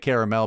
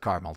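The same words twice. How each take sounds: First: The word is pronounced in a fancy way. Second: The word is pronounced in a plain way. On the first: She is trying to sound refined. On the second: She is speaking normally.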